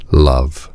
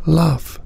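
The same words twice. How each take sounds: First: Low, weighty tiger voice. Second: Put-on high, small child's voice; a hushed first word, pitched high; whispering girl. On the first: The tiger teaching Cinnamon love, low tiger voice. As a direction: speak it low as the great tiger. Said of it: "said the tiger". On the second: Cinnamon answers the tiger after long silence, high hushed voice. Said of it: "whispered Cinnamon, in a voice wild and dark from disuse". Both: A narrator's reading.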